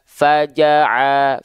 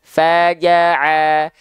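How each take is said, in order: First: The vowels are said with a plain open mouth. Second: The vowels are said with smiling, spread lips. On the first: The speaker calls it wrong. "Kalau dia tidak tersenyum, ... dia cuma buka mulut saja" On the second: The speaker calls it right. "Sekarang kita coba senyumin"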